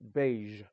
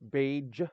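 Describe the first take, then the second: First: The final consonant is a zh sound. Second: The final consonant is not a zh sound. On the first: The speaker calls it right. "it's beige. That's the zh sound" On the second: The speaker calls it wrong. "It's not beige"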